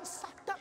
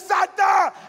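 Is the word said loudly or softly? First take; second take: softly; loudly. First: The word is said softly, in a low voice. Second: The word is said loudly, with a raised voice. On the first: The rebuke is timid and carries no authority. The speaker calls it wrong. "On dit pas Satan!" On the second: The rebuke is forceful and carries authority. The speaker calls it right. "On dit Satan!"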